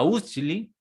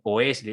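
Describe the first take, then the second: First: The name starts with a U sound. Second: The name starts with an O sound. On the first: This is how the name is said in Germany. The speaker calls it right. "eso se pronuncia Usli" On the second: This is how the name was read from its spelling. The speaker calls it wrong. "empieza con O"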